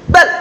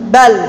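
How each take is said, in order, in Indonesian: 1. L di akhir dihentikan dan ditahan. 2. L di akhir berada di antara dihentikan dan mengalir. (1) "Karena suaranya tertahan" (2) "Tengah-tengahnya bagaimana?"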